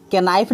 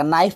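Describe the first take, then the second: First: "केनाइफ" with an added "ke" at the start; K pronounced. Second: "नाइफ" starting straight on N; silent K. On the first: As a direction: voice the silent K in "केनाइफ". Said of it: "केनाइफ नहीं पढ़ा जाएगा". ("केनाइफ" में के बोलकर गलत उच्चारण) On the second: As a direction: say "नाइफ" with no K sound. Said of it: "यहाँ केल साइलेंट रहता है". ("नाइफ" में के साइलेंट रखकर) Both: Shown as a demonstration.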